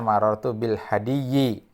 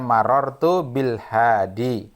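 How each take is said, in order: First: The last word ends with an added -yyi. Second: The last word ends on a plain long i. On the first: The speaker calls it wrong. "Tidak boleh marartu bil hadiyyi" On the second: The speaker calls it right. "Jadi misalkan kalimatnya marartu bil hadi"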